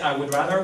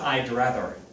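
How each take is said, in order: First: The word 'would' is said in full. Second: 'I would' is contracted to one syllable. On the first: "Instead of saying I would rather" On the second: "we would say I'd rather"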